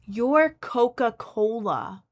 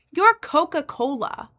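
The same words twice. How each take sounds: First: Very slow, every syllable stretched; slow sarcastic YOU'RE Coca-Cola; drawn-out disbelief. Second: Higher, louder and slow, each word punched; exasperated YOU'RE Coca-Cola; indignant disbelief. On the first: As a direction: let the name hang in disbelief. Repeats the line drawn out. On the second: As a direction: spell it out to a giant brand in outrage. Disbelief at unpaid brand offer. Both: Retold or imitated.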